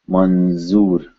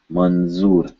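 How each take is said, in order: Both takes have the same delivery.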